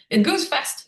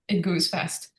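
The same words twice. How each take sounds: First: Higher, rising lift on goes; lifted emphasis. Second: Said in the usual way. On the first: Real, not acted. Telling the host how quickly meditation grows, higher and rising. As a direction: toss it up brightly, rising at the end. Repeats phrase, first take lifted.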